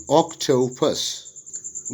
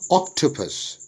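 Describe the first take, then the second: First: "octopus" slowly split as oc, to, pus; syllable by syllable. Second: Said in the usual way. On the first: Shown as a demonstration. Teacher showing syllable division, "octopus" broken into syllables. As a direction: say "octopus" slowly in three separate beats. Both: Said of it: "Syllable division".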